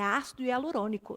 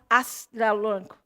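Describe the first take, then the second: First: Every syllable is articulated clearly and distinctly. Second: The syllables are slurred together and unclear. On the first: The speaker calls it right. "tem que ser muito bem articulado na sua boca" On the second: The speaker calls it wrong. "não é"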